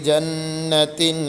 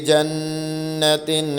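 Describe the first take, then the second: The two takes are said the same way.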